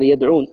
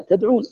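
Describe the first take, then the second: First: "يدعون" said with a clear initial ya, yad'un; ya reading. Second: "تدعون" with initial ta, pitched up and rising; ta reading. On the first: Teacher giving the ya reading "يدعون" to students, clear and deliberate. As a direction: read "يدعون" with ya at the start. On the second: Teacher contrasting the other readers' "تدعون" for students, higher with a rise. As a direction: lift "تدعون" high, stressing the opening ta. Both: Shown as a demonstration. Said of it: "أجل البقية من ماذا؟".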